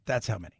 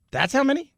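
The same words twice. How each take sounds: First: Flat quiet answer. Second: Mock surprise. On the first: Retold or imitated.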